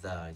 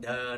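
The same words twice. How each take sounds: First: It starts with a soft th sound. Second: It starts with a hard d sound. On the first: The speaker calls it right. "chúng ta nhớ là the chưa? Khi bao giờ cái phần răng trên này... touches the tongue" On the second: The speaker calls it wrong. "nhanh chúng ta thành the đấy. It's like turn into a D"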